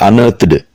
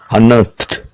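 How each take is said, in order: First: The ending is not a t sound. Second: The ending is a t sound. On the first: The speaker calls it wrong. "Not unearthed" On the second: The speaker calls it right. "T sound"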